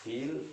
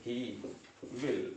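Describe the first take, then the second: First: HE'LL run together as one syllable; short form "he'll", no gap inside; contracted, single syllable. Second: HE and WILL as two separate words; uncontracted "he will", a gap between the words; full form, separated. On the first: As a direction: squeeze "he will" into a single "he'll". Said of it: "single syllable". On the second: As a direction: say "he", pause, then "will". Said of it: "इसके बीच का एक syllable ये है he". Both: Shown as a demonstration.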